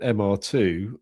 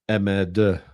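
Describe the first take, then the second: First: The letters are said with English pronunciation. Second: The letters are said with French pronunciation.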